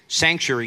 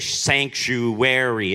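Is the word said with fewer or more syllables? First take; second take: fewer; more. First: The word is said with fewer syllables. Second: The word is said with an extra syllable. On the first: "you say" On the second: "It's like got an extra syllable in there"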